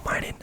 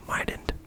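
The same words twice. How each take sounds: First: Said in the usual way. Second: Mightn't said aloud in voice, set apart; voiced mightn't. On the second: Shown as a demonstration. Pausing the story to voice Mightn't aloud. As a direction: voice Mightn't as MY-dunt, checking the word. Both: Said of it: "It's a real word".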